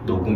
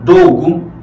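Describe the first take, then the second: First: The word begins with an N sound. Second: The word begins with an L sound. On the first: The speaker calls it right. "자연스럽게 그냥 녹음 이렇게 바꾸시면 돼요" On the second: The speaker calls it wrong. "로금 로금 어렵잖아요"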